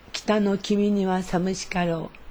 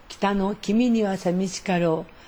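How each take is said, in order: No difference in how they are said.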